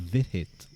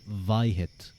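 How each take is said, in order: First: The first syllable rhymes with 'hit'. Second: The first syllable does not rhyme with 'hit'. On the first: The speaker calls it right. "It's vit" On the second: The speaker calls it wrong. "If we pronounced it like you, that drink would now become Vihit. That doesn't rhyme"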